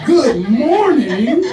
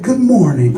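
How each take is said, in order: First: Loud, high, drawn-out questioning echo; incredulous. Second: Loud mock suitor's greeting, falling at the end; quoted greeting. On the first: Real, not acted. Comedian throwing the greeting back, loudly incredulous. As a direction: stretch each word in disbelief, rising at the end. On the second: Comedian quoting a man's message, loud mock greeting. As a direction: belt out the retold greeting as a statement. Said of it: "what this man said to me".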